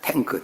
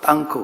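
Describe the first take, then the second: First: The word starts with a plain 'taeng' sound. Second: The word starts with a tense 'ttang' sound. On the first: This is the ordinary form meaning a storage tank. "그냥 탱크" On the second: This is the North Korean, Russian-style form. "북한 사람들은 러시아 발음으로 땅크 그러는데"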